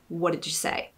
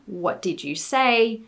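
First: The words are blended together into one run. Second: The words are said separately and clearly. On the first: This is how it sounds in casual Australian speech. "would sound more like" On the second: This is how the sentence looks when written. "A sentence for me"

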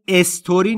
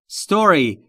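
First: An extra vowel is added before the s. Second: The word starts directly with the s sound. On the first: The speaker calls it wrong. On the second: The speaker calls it right.

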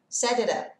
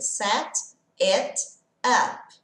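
First: The words link with a light d sound. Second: The words are separate with a clear t sound. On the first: "Quando eu junto, vai mudar um pouquinho... som de D leve" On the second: "se eu tivesse que ler separadamente essas palavras, eu diria set it up"

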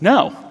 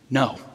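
First: It is said in a warm, positive tone. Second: It is said in a plain, neutral tone.

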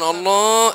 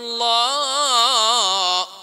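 First: It is said with a nasal voice. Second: It is said without nasality.

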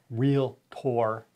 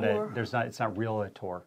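First: The word is said with two syllables. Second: The word is said with three syllables. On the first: The speaker calls it right. "I'm a Realtor" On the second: The speaker calls it wrong. "It's not Realtor"

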